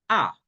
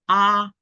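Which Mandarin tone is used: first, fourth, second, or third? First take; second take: fourth; first. First: The pitch falls sharply from high to low. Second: The pitch stays high and level. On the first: "y cuatro"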